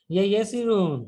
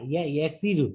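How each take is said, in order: First: Said in the usual way. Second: ইয়াসিরু with single damma, no -n; corrected ending. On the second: Shown as a demonstration. Teacher correcting the vocative ending. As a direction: end ইয়াসিরু on a plain u. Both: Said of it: "না, ইয়া ইয়াসিরু".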